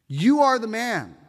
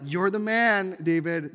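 First: "You ARE the man", hit ARE like an accusation; accusing. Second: Praising. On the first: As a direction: stress on are, pointed and louder. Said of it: "you have to read that the right way". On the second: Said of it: "That's not like". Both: Shown as a demonstration.

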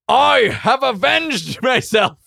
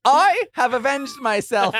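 First: High, loud, slow triumphant cry; character voice scream. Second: High, loud, slow proclamation; character voice. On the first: Warrior raising his axe with a triumphant high shout. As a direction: roar it in victory, pitched up. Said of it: "I scream out". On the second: Player repeating his warrior's victory line in voice. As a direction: declaim it grandly in character. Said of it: "Is that what that character sounds like?". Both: Acted.

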